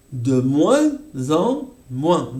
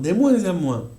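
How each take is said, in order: First: "De moins en moins" spelled out slowly, nasal vowels; slow each nasal in "De moins en moins"; slow demo. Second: Said in the usual way. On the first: Shown as a demonstration. ("De moins en moins" muy lento) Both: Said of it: "revisión fonética".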